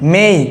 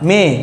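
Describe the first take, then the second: First: The vowel glides from 'e' to 'ee'. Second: The vowel is a plain, steady 'e' sound. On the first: The speaker calls it right. "Only মেই" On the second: The speaker calls it wrong. "Not মে"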